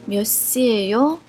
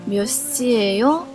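Both takes have the same delivery.

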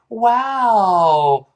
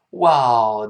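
First: The pitch rises on the word. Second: The pitch falls on the word. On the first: Surprise at good news. "好事呢就声调往上扬一点" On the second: Surprise at bad news. "Wow 降调"

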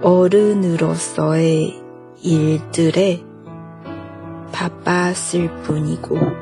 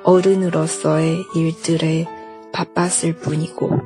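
First: It is said slowly. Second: It is said at normal speed.

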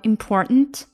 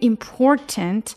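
First: The middle t is swallowed, like a catch. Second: The middle t is clearly released. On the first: "如果读快了后你会听到就像我们原声里面的它会变成important" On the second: "这个important"

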